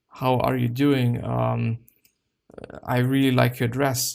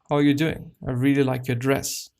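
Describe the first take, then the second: First: It sounds hesitant, with fillers and pauses. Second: It sounds confident and smooth, without hesitation. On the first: The speaker lacks self-assurance. The speaker calls it wrong. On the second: The speaker is self-assured. The speaker calls it right.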